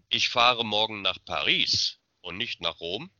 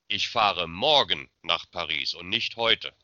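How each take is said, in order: First: The stress is on "Paris". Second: The stress is on "morgen".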